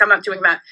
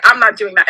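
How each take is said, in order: First: "I'm not doing that" lower and softer, kept to herself; inner voice. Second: Said in the usual way. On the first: Retold or imitated. Thinking it privately during the lap dance, softly. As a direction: murmur it like a private thought. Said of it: "In my head, I'm like". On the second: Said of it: "So I was like".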